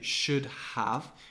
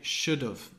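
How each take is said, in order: First: The word 'have' is fully pronounced with its h. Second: The word 'have' is reduced to a short 'of'. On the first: The speaker calls it wrong. "we don't say should have" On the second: The speaker calls it right. "we're kind of taking away the H and the A and we're just pronouncing the of"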